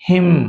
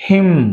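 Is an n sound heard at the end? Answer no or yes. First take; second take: no; no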